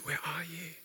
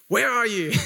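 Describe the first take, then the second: First: It sounds gentle and caring, like a friend. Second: It sounds stern and scolding, like a teacher. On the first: The listener is being looked for with care. The speaker calls it right. "But I hear it as, guys" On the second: The listener is being scolded for not being there. The speaker calls it wrong. "You can hear it like a school teacher's like"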